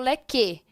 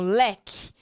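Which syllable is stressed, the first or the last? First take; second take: last; first. First: The stress is on the last syllable. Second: The stress is on the first syllable. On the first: The speaker calls it wrong. "Eu não falo leque" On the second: The speaker calls it right. "Uma paroxítona, ó, leque. ... então eu digo leque"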